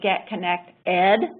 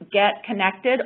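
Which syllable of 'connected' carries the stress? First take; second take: ed; nect. First: The stress falls on the final syllable 'ed'. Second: The stress falls on the middle syllable 'nect'.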